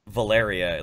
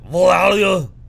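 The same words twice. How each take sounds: First: The name is said clearly and normally. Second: The name is mumbled in a heavy imitated accent. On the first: "the word Valeria" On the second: "mush mouth bullshit butchery"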